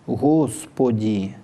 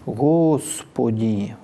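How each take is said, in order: First: The s sound is made with rounded lips. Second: The s sound is made with rounded lips.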